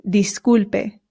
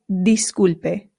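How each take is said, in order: First: The I is an 'ee' vowel. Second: The same.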